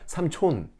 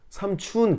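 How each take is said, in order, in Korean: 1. 마지막 음절은 'o' 모음이에요, 'chon'이에요. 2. 마지막 음절은 'u' 모음이에요, 'chun'이에요. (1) "그게 아니라 삼촌" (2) "삼춘 그게 아니라"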